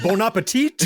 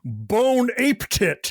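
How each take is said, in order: First: It is said as the usual French phrase. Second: It is said as separate English-sounding words. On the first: This is the intended phrase. The speaker calls it right. "that's bon appetit" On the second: The character misreads the phrase. The speaker calls it wrong. "Connery was always mispronouncing"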